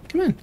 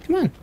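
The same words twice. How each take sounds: The two takes are said the same way.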